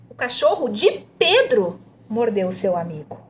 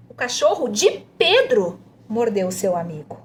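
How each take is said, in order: First: The emphasis falls on "Pedro". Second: The emphasis falls on "Pedro".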